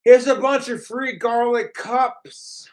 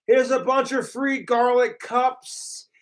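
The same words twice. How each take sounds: First: Spoken aloud mocking version; mock troll line. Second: Unvoiced mock whisper of the troll line; whispered mocking repeat. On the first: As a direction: sneer it out as the troll. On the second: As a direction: hiss it like a secret.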